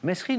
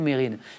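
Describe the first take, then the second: First: The s before the r is pronounced. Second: The s before the r is silent. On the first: Many people said it this way for a long time. The speaker calls it wrong. "longtemps on a dit mmh. Mesrine" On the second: The man himself said it this way. The speaker calls it right. "le principal intéressé, lui-même, disait Mérine"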